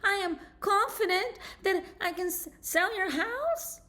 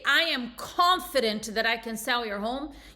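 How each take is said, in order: First: It is said in a hesitant voice. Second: It is said in a confident voice.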